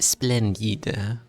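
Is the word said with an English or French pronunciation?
French. It is said with a French-sounding pronunciation. "How would a French person even say it?"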